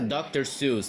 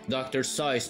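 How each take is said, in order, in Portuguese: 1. O nome não rima com 'voice'. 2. O nome rima com 'voice'. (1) "não se pronuncia doutor Seuss" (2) "Na realidade se pronuncia doutor Seuss ou Zeus. ... Seuss rima com voz, voz em inglês"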